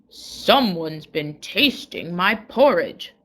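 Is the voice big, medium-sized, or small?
big. It is said in a great big voice.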